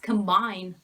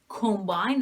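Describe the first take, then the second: First: The first vowel is a weak schwa sound. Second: The first vowel is a full o sound. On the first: The speaker calls it right. "it's combine" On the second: The speaker calls it wrong. "It's not combine"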